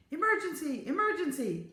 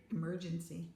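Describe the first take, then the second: First: Urgent, high-pitched cry for help; calling out. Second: Said in the usual way. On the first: A narrator's reading. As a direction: call the alarm across a building. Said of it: "the voice was calling".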